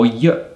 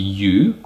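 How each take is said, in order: First: The word is said with a reduced vowel. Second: The word is said with a full vowel. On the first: "the weak form" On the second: "the strong form"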